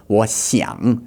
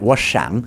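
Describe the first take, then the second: First: 我想 said slowly with X between sh and s; slow model of the Chinese X in 我想; correct X sound. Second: 我想 with the X said like an English sh; imitating his mistake. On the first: Shown as a demonstration. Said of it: "doesn't quite understand how to say an X sound". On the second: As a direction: copy his sh sound in 我想. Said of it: "it's more like 我想".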